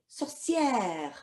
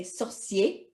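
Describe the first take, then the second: First: "sorcière" with a long "-yair" ending; French "sorcière", drawn out as sor-see-air; feminine form. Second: "sorcier" ending in an open "-yay", no final R; French "sorcier" with a silent final R; masculine form. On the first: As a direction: stretch the open "è" in "sorcière". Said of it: "girls will say sorcière". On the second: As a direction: say "sorcier" as sor-see-ay. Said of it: "So boys will say sorcier". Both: Shown as a demonstration.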